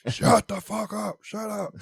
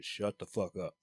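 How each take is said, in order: First: Slow, high, loud retold shout; acted liquored-up yell, pitch way up; drunken yelling. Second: Said in the usual way. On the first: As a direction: holler it at the whole party, stretched out. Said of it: "I'm telling everybody to shut the fuck up". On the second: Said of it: "I'm telling everybody to".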